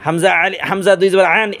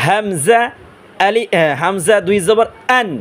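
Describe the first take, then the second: First: আন said wrongly with the squeezed mid-throat sound of ain; quick wrong reading, constricted আন; mistaken hamza. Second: আন with a clean glottal onset, throat open; careful recitation, plain open vowel in আন; correct হামজা. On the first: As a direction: tighten the throat on আন as if it were ain. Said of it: "এইভাবে উচ্চারণ করি". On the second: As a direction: start আন from the bottom of the throat, unsqueezed. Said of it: "এটা উচ্চারণ হবে". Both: Shown as a demonstration.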